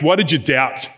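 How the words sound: The line is said in an angry tone. Jesus is angry with Peter. "Some of them would be angry"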